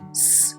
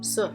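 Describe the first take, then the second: First: The consonant is said alone with no vowel. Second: The consonant has an added uh vowel after it. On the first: The speaker calls it right. "when you remove that uh sound, the pure sounds are" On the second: The speaker calls it wrong. "The incorrect way of saying these letters will all have a kind of an uh sound"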